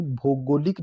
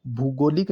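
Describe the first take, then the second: First: भौगोलिक opening on "bho" with o; correct form. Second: भूगोलिक opening on "bhoo" with u; wrong form. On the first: Teacher giving the right form: भौगोलिक with "bho". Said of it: "लिखा जाएगा". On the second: Teacher rejecting the wrong form: भूगोलिक with "bhu". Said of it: "नहीं". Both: Shown as a demonstration.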